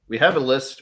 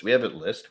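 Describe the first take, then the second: First: "have" leaned on, a touch louder; stress on have. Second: Said in the usual way. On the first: Shown as a demonstration. Host to guests, have stressed. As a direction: push "have" in We have a list.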